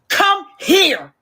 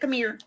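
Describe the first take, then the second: First: It is said angrily, every sound pronounced clearly. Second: It is said calmly, with sounds loosely run together. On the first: The speaker is mad and demanding. "when we mad, that's the only time we can pronounce it" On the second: The speaker is not upset. "But when we not mad"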